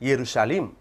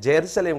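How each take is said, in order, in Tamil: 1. இந்த வார்த்தை 'y' ஒலியில் தொடங்குகிறது. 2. இந்த வார்த்தை 'j' ஒலியில் தொடங்குகிறது. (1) "எருசலேம் என்ற ஒரு வார்த்தை தான் அங்க பயன்படுத்தப்படணும்" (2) "அது ஜெருசலேம் கிடையாது"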